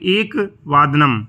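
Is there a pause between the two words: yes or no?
yes. The two words are said with a break between.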